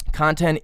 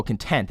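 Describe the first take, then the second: First: Said in the usual way. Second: Content said as con-TENT; stress on second syllable. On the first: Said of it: "oh, content". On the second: Shown as a demonstration. Reader corrects to the adjective meaning peaceful, content stressed on TENT. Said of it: "that'd be in a state of peaceful".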